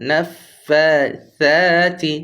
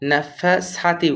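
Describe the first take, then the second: First: The middle consonant is a th sound. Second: The middle consonant is a plain s sound. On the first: The speaker calls it right. "জিহ্বার আগাটা উপরের দুই দাঁতের সাথে লেগে যাবে" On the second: The speaker calls it wrong. "নাফাসাতি করবো না"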